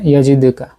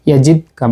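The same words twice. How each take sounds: First: "ইয়াজিদকা" with a slight echo after the দ; light qalqalah bounce. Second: "ইয়াজিদকা" with the দ stopped dead before কা; no qalqalah bounce. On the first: Teacher demonstrating minor qalqalah, "ইয়াজিদকা" with light bounce. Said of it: "হালকা করে". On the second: Teacher showing what was not recited, "ইয়াজিদকা" without bounce. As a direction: close the দ in "ইয়াজিদকা" without any echo. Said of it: "বলিনি". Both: Shown as a demonstration.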